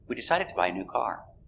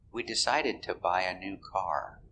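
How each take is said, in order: First: The sentence is said at normal speed. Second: The sentence is said more slowly.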